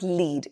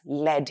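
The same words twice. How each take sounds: First: The vowel is a long ee sound. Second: The vowel is a short e sound. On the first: It is the verb meaning to guide. The speaker calls it wrong. "It's not lead" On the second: It is the noun for a heavy metal. The speaker calls it right. "it's lead here"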